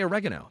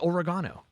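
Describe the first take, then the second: First: It is said the American way. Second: It is said the British and Australian way. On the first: This is how the speaker's own side says it. "They don't say oregano" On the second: This is how people in the UK and Australia say it. "They say oregano"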